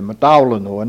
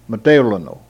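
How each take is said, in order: First: The accented vowel is pronounced like A. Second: The accented vowel is pronounced like French é. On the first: This is how it is said nowadays. The speaker calls it right. "we pronounce it as if it were the letter A. We say" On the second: This is the older pronunciation. The speaker calls it wrong.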